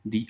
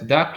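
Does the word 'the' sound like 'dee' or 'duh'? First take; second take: dee; duh. First: The article is said with a long 'dee' vowel. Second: The article is said with a short 'duh' vowel. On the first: The next word starts with a vowel. "ahí sí suena como the" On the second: The next word starts with a consonant. "se pronuncia the club, como con da"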